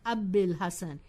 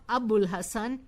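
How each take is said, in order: First: The vowel after 'Ab' is an 'ee' sound. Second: The vowel after 'Ab' is an 'oo' sound. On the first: The speaker calls it right. "it is Abil Hasan" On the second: The speaker calls it wrong. "it is not Abul Hasan"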